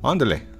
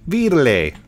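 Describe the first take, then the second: First: The name is said very fast and blurred. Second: The name is said at a normal pace.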